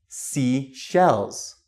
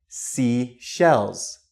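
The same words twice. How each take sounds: Both takes have the same delivery.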